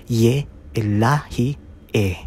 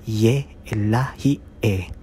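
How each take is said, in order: Both takes have the same delivery.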